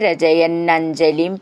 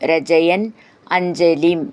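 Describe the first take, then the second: First: The two words run together as one. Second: The two words are said separately.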